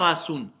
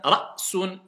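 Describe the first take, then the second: First: The word flows through with no glottal stop. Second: The word has a glottal stop before 's'. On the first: The speaker calls it wrong. "Je dis pas rasun" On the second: The speaker calls it right. "On bloque"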